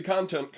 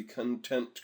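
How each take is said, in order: First: Content with the stress on the first syllable, CON-tent; corrected stress. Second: Content stressed on the second syllable, con-TENT; wrong stress. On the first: Shown as a demonstration. Tutor correcting his slip for students, content stressed CON-tent. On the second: Real, not acted. Tutor reading a setting aloud to students, content slipped as con-TENT. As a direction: say content as con-TENT, like the adjective meaning satisfied. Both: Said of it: "I put the emphasis on the wrong syllable there".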